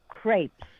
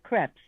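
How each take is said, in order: First: The vowel sounds like the one in 'air'. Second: The vowel sounds like the one in 'cat'. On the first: The speaker calls it right. "It's crepes, ... like in care. Air" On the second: The speaker calls it wrong. "not crepes"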